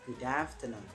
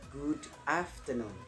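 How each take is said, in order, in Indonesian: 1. Kedua kata itu menyambung tanpa jeda. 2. Kedua kata itu diucapkan dengan jeda di antaranya. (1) "Kalau misalkan itu pengucapannya disambung" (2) "kalau dipisah"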